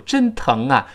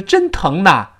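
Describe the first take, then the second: First: "真疼啊" ending in "nga"; natural velar link. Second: "真疼呐" with "na" instead of "nga"; awkward wrong ending. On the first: Teacher showing natural liaison, "真疼啊" linked with ng. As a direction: carry the ng of "疼" into "啊". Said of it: "这个舌根的连读". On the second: Teacher showing the awkward version, "真疼呐" with n. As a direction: put a clear n on "呐" after "疼". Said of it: "就非常别扭". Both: Shown as a demonstration.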